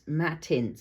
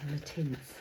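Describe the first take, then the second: First: Matte is said as a separate word. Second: The sounds run together into one word. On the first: It stresses that the surface is matte. The speaker calls it wrong. "I wanted to emphasise the matte-ness of them" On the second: It is the name its creator intended. The speaker calls it right. "that is the definitive pronunciation"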